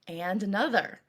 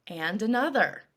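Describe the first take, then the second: No difference in how they are said.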